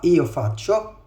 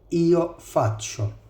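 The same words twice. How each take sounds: First: It is said quickly at normal pace. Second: It is said slowly and carefully. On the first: "فهنعيد بسرعة" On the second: "أنا بتكلم بالراحة عشان تتعلم النطق صح"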